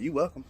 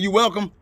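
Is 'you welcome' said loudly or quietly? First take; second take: quietly; loudly. First: It is said quietly, under the breath. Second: It is said loudly, almost hollered. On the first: The politeness is grudging and meant to go unheard. "That shit ain't gonna be on my breath" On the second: The person is pointedly called out for not saying thanks. "I'm gonna holler and tell you you welcome"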